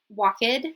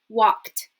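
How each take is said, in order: First: The ending is an extra syllable, like 'id'. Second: The ending is a single voiceless 't' sound. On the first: The speaker calls it wrong. "I'm not going to say walked" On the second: The speaker calls it right. "the ed will be pronounced as a t"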